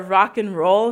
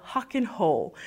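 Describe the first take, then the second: First: Rock and roll with an English r, /rake n rol/. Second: Rock and roll said as hock and hol, breathy h for each r; Brazilian h for r. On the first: Teacher showing students the correct rock and roll, English r. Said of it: "Ao invés de falar". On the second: Teacher imitating Brazilian learners saying rock and roll with h. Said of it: "você fala". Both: Shown as a demonstration.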